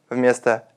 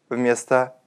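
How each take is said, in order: No difference in how they are said.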